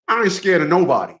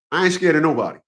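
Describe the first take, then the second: No difference in how they are said.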